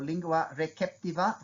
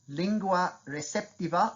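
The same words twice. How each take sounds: First: It is pronounced in a traditional Latin style. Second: It is pronounced in an English style.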